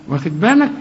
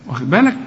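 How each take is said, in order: No difference in how they are said.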